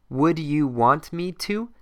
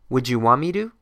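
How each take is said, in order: First: Each word is said clearly and separately. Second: The words run together in relaxed American speech.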